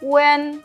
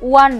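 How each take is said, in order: First: The vowel is a mid 'e', like 'wen'. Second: The vowel is an open 'a', like 'wan'. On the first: The speaker calls it right. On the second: The speaker calls it wrong. "ওয়ান না"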